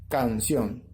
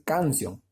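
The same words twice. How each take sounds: First: Canción with the weight on CIÓN; stress on last syllable. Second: Canción stressed on CAN, CAN-cion; wrong stress. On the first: Teacher showing correct canción, stress on last syllable. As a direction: lean on the final syllable of canción. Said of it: "mayor fuerza de voz en la última sílaba". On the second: Teacher showing what you can't say, canción stressed on CAN. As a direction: move the beat of canción onto the first syllable. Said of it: "Porque no puede decir canción". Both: Shown as a demonstration.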